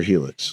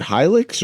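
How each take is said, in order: First: "helix" with a long ee at the start; first syllable like he. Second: "Hilux" with a long i, like high; first syllable like high. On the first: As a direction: say helix as HEE-licks. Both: Shown as a demonstration. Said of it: "Is it Hilux or helix?".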